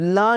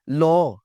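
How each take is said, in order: First: The vowel is an open unrounded 'ah'. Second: The vowel is a rounded 'aw'. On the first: The speaker calls it wrong. "ला नहीं किया होता जी आपने" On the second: The speaker calls it right. "लॉ लफ्ज है"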